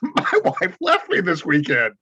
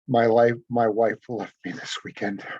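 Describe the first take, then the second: First: It is said with a laugh, amused. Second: It is said in a serious tone.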